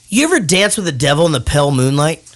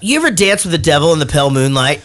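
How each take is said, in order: First: It is said slower, with more emotion. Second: It is said quicker, with less emotion.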